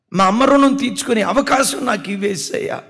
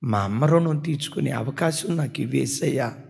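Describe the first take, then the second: First: Repeated plea, higher and louder, near sobbing; a son begging God through tears, raised voice; tearful plea. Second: Said in the usual way. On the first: Retold or imitated. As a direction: cry it out the second time, pleading harder. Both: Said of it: "ఏడుస్తూ చెప్పుతూ ఉండేవాడు".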